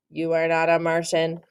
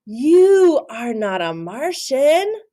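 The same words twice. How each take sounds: First: Said in the usual way. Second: Slow, higher, louder insistence; insistent. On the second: Acted. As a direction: tell him firmly. Character version.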